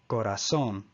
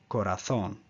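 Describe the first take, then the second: First: The z is pronounced as an s sound. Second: The z is pronounced as a th sound. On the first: This is the Latin American pronunciation. "in Latin America, corazón" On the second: This is the pronunciation used in Spain. "The same word pronounced in Spain would be corazón"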